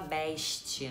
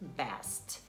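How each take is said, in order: First: The s sounds like sh. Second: The s sounds like a plain s. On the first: The speaker calls it wrong. "esse X, né, no som do S" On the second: The speaker calls it right. "Em vez de falar best"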